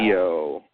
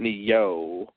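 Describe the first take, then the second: First: A faint Y glide is heard before the o. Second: A strong, stressed Y glide is heard before the o. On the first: The speaker calls it right. "you can say Neo, and put a Y in there" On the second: The speaker calls it wrong. "But not Neo"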